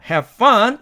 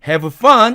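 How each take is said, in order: First: The v sound of have is dropped. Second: The v sound of have is fully pronounced. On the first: "have fun 이런 식으로 발음한다" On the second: "이렇게 정직하게 have fun 이렇게 하지 않고"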